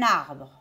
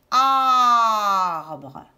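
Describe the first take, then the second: First: Said in the usual way. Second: ARBRE with a long, loud opening A; drawn-out vowel. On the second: Shown as a demonstration. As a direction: stretch the first A of ARBRE. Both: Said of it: "Est-ce que j'entends A".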